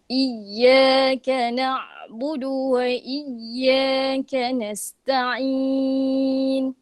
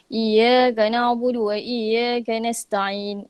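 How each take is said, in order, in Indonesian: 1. Bunyi y ganda ditahan dengan jelas. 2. Bunyi y ganda diucapkan longgar. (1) "kita kena baca dengan jelas" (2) "dia macam longgar"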